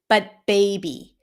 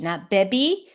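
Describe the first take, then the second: First: The vowel glides from e into a second sound. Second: The vowel stays on the first e sound. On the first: The speaker calls it right. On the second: The speaker calls it wrong.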